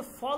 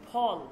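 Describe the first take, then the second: First: "ফল" with an English-style f; wrong f sound. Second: "ফল" with a p pushed out on a puff of air; aspirated p. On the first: Teacher warning students what we don't say, "ফল" with an f. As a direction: say "ফল" starting on a hissed f, not aspirated p. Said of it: "আমরা কিন্তু ফল বলি না". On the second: Teacher showing students what we do say, "ফল" with pushed aspirated p. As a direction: start "ফল" on aspirated ph, never f. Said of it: "না পয়ের মতন উচ্চারণ হয়". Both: Shown as a demonstration.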